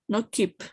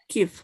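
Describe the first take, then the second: First: The word ends in a p sound. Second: The word ends in an f sound. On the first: The speaker calls it wrong. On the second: The speaker calls it right. "P H always has an F"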